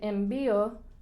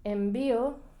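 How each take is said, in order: Both takes have the same delivery.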